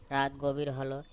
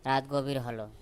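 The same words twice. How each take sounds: The two takes are said the same way.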